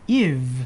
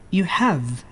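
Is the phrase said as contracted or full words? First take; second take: contracted; full. First: The words are merged into one contracted syllable. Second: Both words are said in full, separately.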